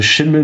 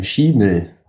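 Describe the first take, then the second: First: "Schimmel" like the everyday word, short first vowel; mould-word pronunciation. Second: "Schimmel" with a long first vowel, Schie-mel; single-M pronunciation. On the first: Co-host checking the spelling with one M, explanatory pronunciation. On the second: Co-host showing the name with one M, drawn-out vowel. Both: Shown as a demonstration. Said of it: "Schimmel mit einem M".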